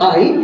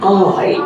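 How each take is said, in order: First: The vowel stays as one steady sound. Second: The vowel is drawn out and glides between sounds. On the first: The speaker calls it wrong. "It's not আই" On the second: The speaker calls it right. "এটা একটা diphthong, একটু টেনে এরকম আই একটু উপরে উঠবে, তারপরে glide করবে নিচে"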